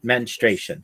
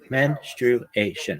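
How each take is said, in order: First: The word is said with three syllables. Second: The word is said with four syllables. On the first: The speaker calls it wrong. "not menstruation. That's not right" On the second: The speaker calls it right. "It's four syllables"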